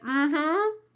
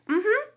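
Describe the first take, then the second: First: It sounds sarcastic and negative. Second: It sounds happy and positive. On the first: The speaker doubts it will really happen. "This is very sarcastic and it is negative" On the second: The speaker genuinely agrees. "happy, positive, yes"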